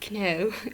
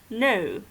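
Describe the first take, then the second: First: The K at the start is sounded. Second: The K at the start is silent. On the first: The speaker calls it wrong. "you don't say no" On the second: The speaker calls it right. "You just say no"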